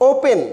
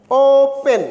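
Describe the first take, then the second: First: Said in the usual way. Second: "ওপেন" slowly as two syllables, with a long ও; split syllables. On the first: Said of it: "দুটাই আলাদা আলাদাভাবে উচ্চারণ হচ্ছে". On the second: Shown as a demonstration. Teacher showing students two syllables, "ওপেন" split as ও-পেন. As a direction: stretch ও, then land পেন separately in "ওপেন". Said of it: "অর্থাৎ দুইটা syllable আছে".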